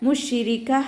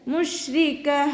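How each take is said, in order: First: An extra i vowel follows the sh sound. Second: The sh sound runs into r without a vowel. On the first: The speaker calls it wrong. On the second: The speaker calls it right.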